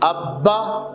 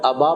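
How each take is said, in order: First: The middle b sound is held long and doubled. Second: The middle b sound is short and quick. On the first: The speaker calls it right. "थोड़ा सा जमाव और ठहराव के साथ पढ़ते हैं" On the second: The speaker calls it wrong. "अबा पढ़ लेंगे तो वो तशदीद ज़ाहिर नहीं होगी"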